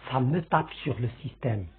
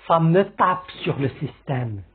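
First: "Ça me tape sur le système" lower and much softer, heavy; graver tone. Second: Said in the usual way. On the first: Shown as a demonstration. Teacher showing the more serious way to say it, grave. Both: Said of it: "on le dit d'une façon, euh, plus grave".

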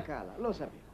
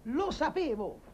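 First: "lo sapevo" low and soft; muttered realisation. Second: "Lo sapevo" pitched high, drawn out; exclaimed repeat. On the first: Friend hearing she is beautiful, muttered realisation. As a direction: drop "lo sapevo" under your breath. First, low take of repeated line. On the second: Friend confirming his own suspicion, exclaimed repeat. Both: Acted.

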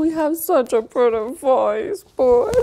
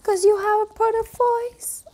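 First: Said in the usual way. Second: Pet voice. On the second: Real, not acted. Owner praising her dog Lennox in high baby talk. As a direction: coo pretty voice at the pup. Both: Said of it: "that's how I, I speak to him".

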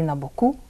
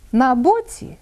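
First: БокУ stressed on the final у; stress on the ending. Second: БОці stressed on the first syllable; stress on the stem. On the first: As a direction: move the stress to the last syllable of боку. (наголос на закінченні: бокУ) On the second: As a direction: hit the О in боці, light ending. (наголос на основі: бОці) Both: Shown as a demonstration. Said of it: "Бачите, міняється наголос".

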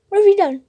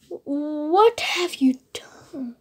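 First: Said in the usual way. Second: Soft unvoiced whisper, slow. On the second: Child reading Scar's line to Simba, whispered. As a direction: breathe the words like a sly secret.

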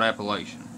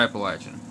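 First: Appalachian with a long a, app-uh-LAY-shun; outsider Appalachian. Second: Appalachian with a short a as in latch, app-uh-LATCH-un; local Appalachian. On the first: Mimicking how outsiders say Appalachian, with a long lay sound. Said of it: "You guys call it Appalachian". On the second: Showing outsiders how his people say Appalachian, with a short latch sound. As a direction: say Appalachian the Kentucky way, LATCH in the middle. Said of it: "We call it Appalachian". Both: Shown as a demonstration.

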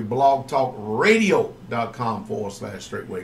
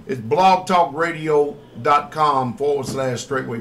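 First: "Blogtalkradio dot com forward slash straightway" said slowly and lower, each part spaced out; slow, clear repeat. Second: Said in the usual way. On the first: Shown as a demonstration. Radio host repeats the web address for listeners, slow and deliberate. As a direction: spell it out slowly so listeners can write it down. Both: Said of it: "host repeats web address".

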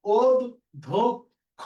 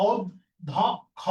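First: অধ ধ খ as od, dhok, kho with round o; correct pronunciation. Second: অধ ধ খ in pieces with open aw vowels; as-written pronunciation. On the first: Teacher giving the answer, rounded separate syllables. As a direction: punch out অধ ধ খ syllable by syllable, vowels rounded. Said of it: "তাহলে এটা হচ্ছে উত্তর". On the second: Teacher showing what is written, open vowels. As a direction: read অধ ধ খ apart, vowels open. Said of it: "এইটা লেখা আছে কি দেখো". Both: Shown as a demonstration.

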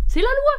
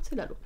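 First: Loud, high burst on the rule; emphatic insistence. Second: Said in the usual way. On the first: Acted. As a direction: proclaim LOI high and very loud. (insistance criée, forte et aiguë)

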